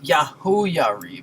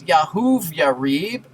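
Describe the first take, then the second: First: A vowel follows 'Yahu' with no 'v' consonant. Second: A 'v' consonant follows 'Yahu' in the name. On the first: The speaker calls it right. "third letter is a vowel" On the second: The speaker calls it wrong. "No one thinks it's"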